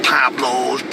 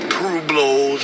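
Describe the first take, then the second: First: The word begins with the sound 'pab'. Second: The word begins with the sound 'pweb'. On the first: The speaker calls it wrong. "It's not Pablos" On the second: The speaker calls it right. "You can't say the word Pueblo"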